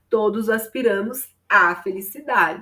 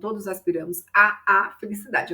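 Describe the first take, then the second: First: A single merged 'a' comes before 'felicidade'. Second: Two separate 'a' sounds come before 'felicidade'. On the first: The speaker calls it right. "há uma fusão do artigo a" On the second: The speaker calls it wrong. "mas a gente não vai falar assim"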